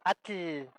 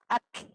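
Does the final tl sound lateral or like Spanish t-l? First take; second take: Spanish t-l; lateral. First: The tl is said like Spanish t plus l. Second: The tl is released out the sides of the mouth. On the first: The speaker calls it wrong. "casi todos nosotros que hablamos español decimos cosas como atl" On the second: The speaker calls it right. "la forma correcta es como un chasquido que sale por los lados de la boca"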